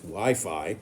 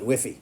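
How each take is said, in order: First: The word is said as 'why fye'. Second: The word is said as one short 'whiffy'. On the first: The reader knows the term. The speaker calls it right. "knows it's Wi Fi" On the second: The reader does not know the term. The speaker calls it wrong. "he might call it Whiffy"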